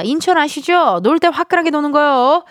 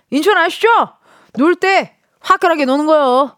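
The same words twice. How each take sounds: First: Incheon swagger. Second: Hammed-up brash Incheon voice, higher and louder, leaning on 때; full Incheon vibe. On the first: Retold or imitated. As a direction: sell it with Incheon bravado. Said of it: "마지막 멘트에서 인천 향이 확 느껴집니다". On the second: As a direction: go all-out with the Incheon bravado. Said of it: "완전 인천 바이브입니다".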